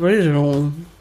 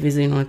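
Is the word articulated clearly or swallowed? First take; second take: clear; swallowed. First: The word is articulated clearly and fully. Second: The word is swallowed and indistinct.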